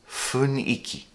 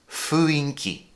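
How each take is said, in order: First: It is pronounced fun-i-ki. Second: It is pronounced fu-in-ki. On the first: The speaker calls it right. "apparently the proper way is funiki" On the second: The speaker calls it wrong. "Until now, I thought it was fuinki"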